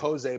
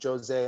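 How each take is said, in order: First: The name starts without a J sound. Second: The name starts with a J sound. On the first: "Like it's spelled like" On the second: "in Brazil they they pronounce the J"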